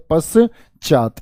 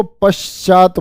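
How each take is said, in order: First: पश्चात broken into pas and chaat; split-up form. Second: पश्चात as one word with sh before ch; joined usual form. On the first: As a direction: pause after a plain s inside पश्चात. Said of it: "जैसे मैंने ये बोल दिया". (पश्चात को पस-चात तोड़कर बोलें) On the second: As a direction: join पश and चात smoothly in पश्चात. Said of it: "क्या बोल देते हैं इसको". (पश्चात को श के साथ जोड़कर बोलें) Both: Shown as a demonstration.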